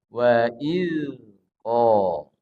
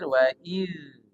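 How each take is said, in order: First: The final consonant is bounced with an echo. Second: The final consonant flows smoothly without a bounce. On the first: The speaker calls it wrong. "ini keliru ya" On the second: The speaker calls it right. "tapi ini mengalir"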